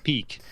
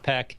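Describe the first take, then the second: First: The vowel is long, like 'ee'. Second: The vowel is short, like 'eh'. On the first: The speaker calls it right. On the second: The speaker calls it wrong. "Not not Peck"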